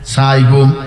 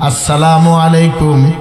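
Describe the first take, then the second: First: The greeting is clipped to two syllables. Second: The greeting is said fully with every syllable. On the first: A wish for wrath upon the other. The speaker calls it wrong. "এখন কেউ কাউরে সালাম দেয় না, বলে সাইকুম সাইকুম" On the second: A wish for mercy upon the other. The speaker calls it right. "তোর উপর রহমত বর্ষিত হোক"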